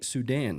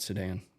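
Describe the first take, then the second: First: The first vowel is a full 'oo' sound. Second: The first vowel is reduced, like 'sedan'. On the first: The speaker calls it right. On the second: The speaker calls it wrong.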